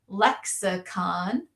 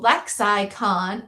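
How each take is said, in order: First: The middle vowel is a weak schwa sound. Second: The middle vowel is a full long 'eye' sound. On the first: "or make that schwa" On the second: "this would be open syllable"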